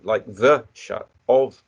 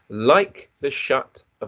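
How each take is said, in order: First: The first beat falls on the second word. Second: The first beat falls on the first word. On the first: The speaker calls it wrong. "otherwise it would have been like the shut of, and it wouldn't make sense" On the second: The speaker calls it right. "it starts with like, not the second syllable"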